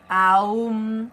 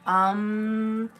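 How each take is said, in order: First: It glides from an open A through U to M. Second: It is a short vowel ending in an NG hum. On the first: It is the sound for the third eye. "think of it as pronounced A U M. Really get that U in there" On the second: It is the sound for the crown. "it's more um, Think of it as A N G"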